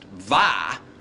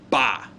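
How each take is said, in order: First: The word begins with a v sound. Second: The word begins with a b sound. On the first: The speaker calls it wrong. "this would not be pronounced va" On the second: The speaker calls it right. "pronounced ba. Hear it?"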